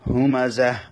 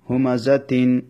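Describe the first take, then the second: First: The word ends with a soft h sound. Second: The word ends with a full -tin syllable. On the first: The reading stops at this word. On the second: The reading continues past this word.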